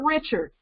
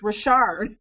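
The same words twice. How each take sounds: First: The name sounds like the common English Richard. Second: The name sounds unlike the common English Richard. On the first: The speaker calls it wrong. "It's not Richard, even though it looks like it's spelled that way" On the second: The speaker calls it right. "It's Richard"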